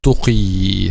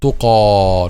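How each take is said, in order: First: The word ends in an 'ee' vowel. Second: The word ends in an 'a' vowel. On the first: The speaker calls it wrong. "not tuqi" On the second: The speaker calls it right. "It will be pronounced like alif"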